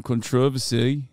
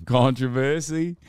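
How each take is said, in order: First: Controversy stressed on TROV; second-syllable stress. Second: Controversy stressed on CON; first-syllable stress. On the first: Repeats the word in another stress. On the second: Laughing, repeats word with other stress. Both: Shown as a demonstration.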